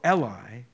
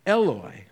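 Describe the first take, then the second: First: "Eli" said as el-eye; Eli form. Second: "Eloi" said as el-oy; Eloi form. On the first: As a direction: end "Eli" on an eye sound. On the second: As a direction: end "Eloi" on an oy sound. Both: Shown as a demonstration. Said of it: "that's the dual form".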